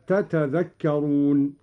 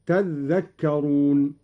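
First: "تتذكرون" slowly, both ت sounded, single ذ; original two-ta form. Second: "تذكرون" with the ذ doubled and held; doubled dhal. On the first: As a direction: sound each ت separately in "تتذكرون". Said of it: "وأصلها". («تتذكرون» بتاءين وذال مخففة) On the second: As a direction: lean on a geminated ذ in "تذكرون", slowly. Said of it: "بتشديد الذال هكذا". (تشديد الذال في «تذكرون») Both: Shown as a demonstration.

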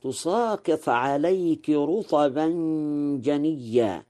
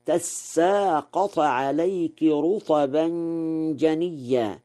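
First: تساقط as tusāqiṭ; standard reading. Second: تساقط as tassāqaṭ, with a fath and a doubled sin; Warsh reading. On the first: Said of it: "قوله تعالى". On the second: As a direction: recite تساقط as tassāqaṭ, slowly. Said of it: "قرأ ورش". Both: Shown as a demonstration.

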